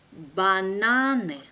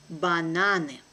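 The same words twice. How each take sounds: First: Slow and careful, drawn out for learners; teacher's careful slow reading. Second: Brisk, natural native speed; quick native pace. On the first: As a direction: spell it out slowly for the class. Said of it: "one first time will be slow". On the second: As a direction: say it fast like a native. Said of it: "second time will be quickly, like a native". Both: Shown as a demonstration.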